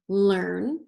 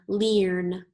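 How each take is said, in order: First: The vowel sounds like the 'er' in 'her'. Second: The vowel sounds like the 'ear' in 'hear'. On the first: The speaker calls it right. "let's try it with er ... so that sounds right" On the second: The speaker calls it wrong. "Let's try it with earn, ear, sorry"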